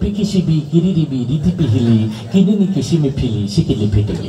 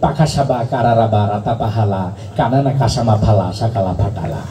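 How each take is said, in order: First: Every syllable uses the vowel i. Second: Every syllable uses the vowel a. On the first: The i vowel sign had just appeared. "রস্মিকার আবিষ্কার হইলো" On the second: Only the a vowel sign existed. "আকার আবিষ্কার করলো"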